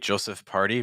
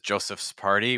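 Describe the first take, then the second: First: The possessive S sound is barely heard. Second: The possessive S sound is clearly heard. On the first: The speaker calls it wrong. "it's just hyper reduced" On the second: The speaker calls it right. "We need that S sound to stand out a lot more"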